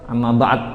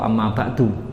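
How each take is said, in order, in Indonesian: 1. Vokal akhir dihilangkan, jadi berakhir dengan konsonan. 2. Vokal akhir u dibaca di akhir. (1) "Kalau memang diwakof amma ba'd, amma ba'd boleh" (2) "Atau amma ba'du"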